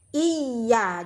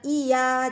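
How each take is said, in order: First: The y sound is doubled and held longer. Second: The y sound is single and short. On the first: The speaker calls it right. "jadi y-nya dua" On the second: The speaker calls it wrong. "bukan iya"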